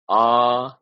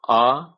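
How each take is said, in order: First: The vowel is held for two beats. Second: The vowel is held very briefly. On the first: "Dirgha means uh, two measures" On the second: "Hriswa means short"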